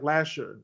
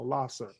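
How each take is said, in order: First: The middle consonant is a 'sh' sound. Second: The middle consonant is an 's' sound. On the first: The speaker calls it wrong. "people say la, like Lasher" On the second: The speaker calls it right. "S E R is Sir, so Lasser"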